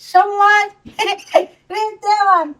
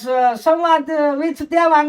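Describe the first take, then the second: First: It is said in a small child's voice. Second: It is said in an old woman's voice. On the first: "છોકરો કઈ રીતે બોલે પાંચ વર્ષનો?" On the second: "કોઈ દાદીમાં બોલતા હોય"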